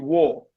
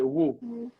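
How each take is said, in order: First: The vowel is a rounded aw sound. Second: The vowel is a close oo sound. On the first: "The British would say wo" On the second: "in his city, the O sounds like ooh"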